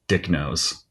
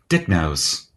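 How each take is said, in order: First: It is said in the speaker's normal accent. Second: It is said in a put-on English accent.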